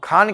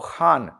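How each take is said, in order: First: The first sound is a plain stop. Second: The first sound is a fricative from the tongue root. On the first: The speaker calls it wrong. "हम खान कहते हैं" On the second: The speaker calls it right. "पर वास्तविकता में वो खान"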